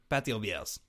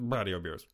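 First: It is said in a put-on French accent. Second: It is said in the speaker's ordinary accent. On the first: "but now with a French accent" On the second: "say it your way"

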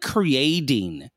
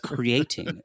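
First: The t is said like a d. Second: The t is said as a clear t. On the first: The speaker calls it wrong. "they all pronounce their T's as D's" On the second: The speaker calls it right. "No, it's creating"

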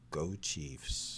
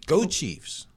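First: It is said flatly, without energy. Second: It is said with more energy.

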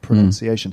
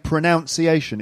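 First: The second syllable sounds like 'nun'. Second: The second syllable sounds like 'noun'. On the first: The speaker calls it right. "It's actually pronunciation" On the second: The speaker calls it wrong. "So you hear lots of people saying pronunciation. It's not correct"

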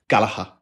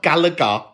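First: The surname is given an Irish pronunciation. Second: The surname is given an anglicized pronunciation. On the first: The speaker calls it right. "that's how you say it" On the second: The speaker calls it wrong. "It's not Gallagher"

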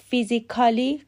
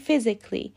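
First: A vowel is said between the k and l. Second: No vowel is said between the k and l. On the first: The speaker calls it wrong. "پس فیزیکالی غلطه" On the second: The speaker calls it right. "باید بگیم فیزیکلی"

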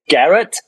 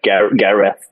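First: The name ends with a plain t sound. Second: The name ends with a th sound. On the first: The name is misheard by someone else. The speaker calls it wrong. "No, not Garrett" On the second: The name is said as it really is. The speaker calls it right.

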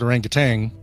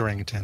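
First: The word ends with an added 'g' sound. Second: The word ends with a plain 'n' sound. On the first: The speaker calls it wrong. "there's no G at the end. So people who pronounce it orangutan, stop it" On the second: The speaker calls it right. "I say orangutan"

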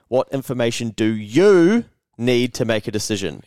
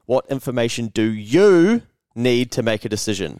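First: One key word is given strong emphasis. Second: One key word is given strong emphasis.

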